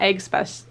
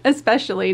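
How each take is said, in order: First: The word begins with an 'egg' sound. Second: The word begins with an 'es' sound. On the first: The speaker calls it wrong. "am I saying that wrong?" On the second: The speaker calls it right. "especially, not egg special"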